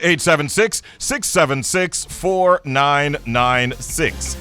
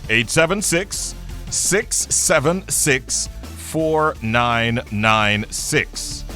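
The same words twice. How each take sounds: First: The number is said fast. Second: The number is said slowly.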